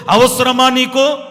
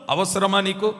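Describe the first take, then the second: First: అవసరమా slow, louder and higher, pressed hard; pressing question. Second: Said in the usual way. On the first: Acted. Preacher challenging the brother, అవసరమా stretched and loud. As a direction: lean hard on అవసరమా, drawn out.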